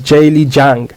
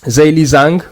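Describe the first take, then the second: First: The name is said with Chinese-style sounds. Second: The name is said with anglicized sounds. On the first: The speaker calls it right. "I know how to pronounce Chinese names. So he is Jayli Jiang" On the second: The speaker calls it wrong. "A lot of people call him Zheli Zhang, which is the wrong way of saying it"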